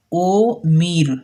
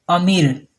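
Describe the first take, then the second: First: Very slow ओ मीर split in two; wrong pronunciation. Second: अमीर said as one word, a-meer; correct pronunciation. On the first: Teacher slowly showing the mistaken split ओ मीर. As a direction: drag out ओ मीर as o, then meer. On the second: Teacher giving the correct अमीर. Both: Shown as a demonstration. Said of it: "ये गलत लफ्ज़ है".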